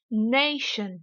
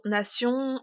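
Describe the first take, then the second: First: "nation" in English, NAY drawn out; teacher's over-stressed "nation", falling after NAY; exaggerated English stress. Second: Said in the usual way. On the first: Shown as a demonstration. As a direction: lean hard on NAY in "nation", light "shun". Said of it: "je vais délibérément exagérer". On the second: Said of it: "uniquement prononcés en français".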